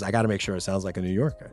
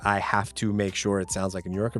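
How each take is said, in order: First: It is said in a New York accent. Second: It is said in a neutral accent.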